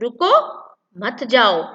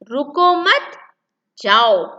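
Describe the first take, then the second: First: The pause comes after the first word. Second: The pause comes after the second word. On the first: The listener is being told not to go. "रुको मत जाओ और यहाँ पर जाने के लिए मना किया जा रहा है" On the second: The listener is being told to go. "रुको मत जाओ तो जाने के लिए कहा जा रहा है"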